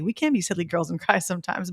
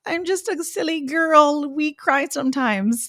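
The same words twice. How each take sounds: First: Said in the usual way. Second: Put-on high, slow, simpering girly voice; mock silly girl. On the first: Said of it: "I didn't wanna feel that way, but sometimes that's okay". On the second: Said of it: "I don't wanna play into the".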